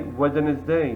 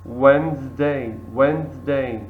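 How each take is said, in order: First: Wednesday with the D sounded, wed-nez-day; wrong way. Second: Wednesday said wenz-day, D silent; Wednesday, two syllables, no D; right way. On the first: Teacher shows the wrong Wednesday to the class, voicing the D. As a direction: spell it out as Wednesday, every letter. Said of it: "We don't say Wednesday". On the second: Teacher models the right Wednesday for students, D silent. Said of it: "We say Wednesday". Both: Shown as a demonstration.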